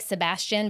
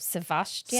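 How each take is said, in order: First: The middle consonant is a B sound. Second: The middle consonant is a V sound. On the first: "it's like Sebastian" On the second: "it's like a V instead of a B, so Sebastian"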